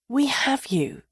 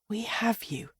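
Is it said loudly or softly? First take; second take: loudly; softly. First: It is said at normal loudness. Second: It is said more softly.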